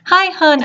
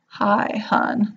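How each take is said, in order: First: It is said in a chipper, excited way. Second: It is said in a smooth, suave way.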